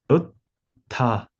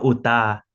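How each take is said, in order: First: The t is doubled across two syllables. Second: The t is said once, as single. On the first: The speaker calls it right. "todas las letras se deben pronunciar" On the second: The speaker calls it wrong. "no uta"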